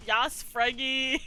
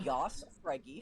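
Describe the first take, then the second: First: Loud, raised, drawn-out cheer; mock-fan hurrah at full volume; gleeful cheer. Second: Dry, unmoved hurrah; deadpan cheer. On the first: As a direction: whoop it out like a superfan. Gleefully cheering the favourite review. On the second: Shown as a demonstration. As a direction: say the cheer straight-faced, without excitement. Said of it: "something about you reading them deadpan".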